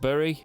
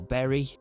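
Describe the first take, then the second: First: The name is pronounced the way it's spelled. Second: The name is pronounced to sound like berry. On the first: The speaker calls it wrong. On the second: The speaker calls it right.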